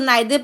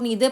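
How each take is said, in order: First: The first vowel sounds like 'eye'. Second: The first vowel sounds like 'ee'. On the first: "इसको नाइदर pronounce करते हैं" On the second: "कुछ लोग नीदर pronounce करते हैं इसको"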